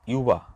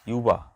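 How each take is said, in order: No difference in how they are said.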